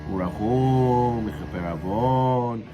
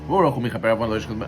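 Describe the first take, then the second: First: The phrase is said slowly and drawn out. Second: The phrase is said quickly. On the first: The speaker calls it right. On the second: The speaker calls it wrong.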